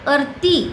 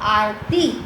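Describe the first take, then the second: First: The first vowel is short. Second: The first vowel is long. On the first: The speaker calls it wrong. "आरती ऐसा नहीं बोलते हैं" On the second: The speaker calls it right. "यहाँ पे आ की मात्रा है"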